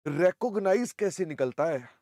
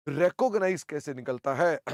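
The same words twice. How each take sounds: The two takes are said the same way.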